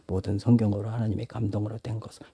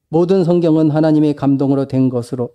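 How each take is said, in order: First: It is read in a quiet voice. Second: It is read in a loud voice. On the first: "조그맣게 읽을 수, ... 이렇게 읽을 수도 있어요" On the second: "이게 크게 읽을 수도 있어요"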